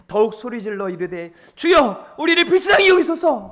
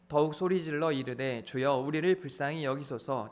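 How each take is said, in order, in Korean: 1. 강한 감정을 실어 소리 질러 말했어요. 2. 감정 없이 밋밋하게 읽었어요. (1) "막 연기자들은 ... 막 이렇게 했다는" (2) "여러분들은 ... 이렇게 했다면"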